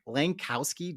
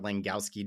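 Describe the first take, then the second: First: The K sound in the middle is clearly pronounced. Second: The K sound in the middle is left silent. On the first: The speaker calls it wrong. "just doesn't quite roll for me" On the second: The speaker calls it right. "where Langowski does"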